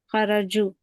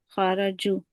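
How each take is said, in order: The two takes are said the same way.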